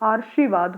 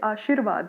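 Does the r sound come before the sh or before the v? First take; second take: before sh; before v. First: The r sound comes just before the sh. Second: The r sound comes just before the v. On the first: The speaker calls it wrong. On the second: The speaker calls it right.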